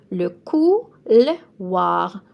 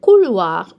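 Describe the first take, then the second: First: "couloir" drawn out slowly, "oi" as "wa"; slow French model. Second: "Couloir" said short and louder, "oi" as "wa"; louder French model. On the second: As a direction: punch out "Couloir" firmly. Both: Shown as a demonstration. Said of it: "O I in French is an wa".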